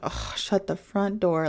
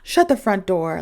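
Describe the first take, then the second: First: It sounds irritated, with a groan. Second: It sounds surprised, with a gasp.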